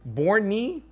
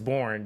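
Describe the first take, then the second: First: The name is said with two syllables. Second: The name is said with one syllable. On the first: Someone else suggested this pronunciation. The speaker calls it wrong. "You said no, it's Borny" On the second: The game's creators say it this way. The speaker calls it right. "I heard it was Born"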